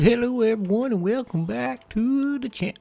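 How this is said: It is said in a put-on character voice. The speaker calls it wrong.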